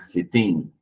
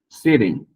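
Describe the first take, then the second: First: The -ing ending carries the stress. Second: The first syllable carries the stress. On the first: The speaker calls it wrong. "não é sitting" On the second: The speaker calls it right. "a sílaba antes do ing é mais forte"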